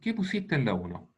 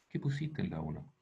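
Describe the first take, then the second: First: The question is spoken louder still. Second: The question is spoken somewhat louder. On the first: The classmate finally hears it. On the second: The classmate still does not hear it.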